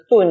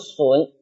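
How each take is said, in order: First: The syllable starts with a d sound. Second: The syllable starts with a sh sound. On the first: "这个顿呢" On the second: "又读作损"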